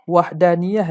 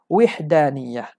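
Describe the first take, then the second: First: The first vowel is an open 'a' sound. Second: The first vowel is a high 'i' sound. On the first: "baca dengan fathah waw" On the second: "waw tu dibaca baris bawah"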